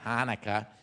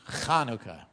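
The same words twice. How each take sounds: First: It begins with a plain h sound. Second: It begins with a throaty ch sound. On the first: The speaker calls it wrong. "It's not Hanukkah" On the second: The speaker calls it right. "you got to say the ch. It's Hanukkah"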